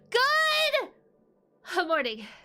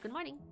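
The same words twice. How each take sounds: First: It is said loudly with punch. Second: It is said quietly and timidly.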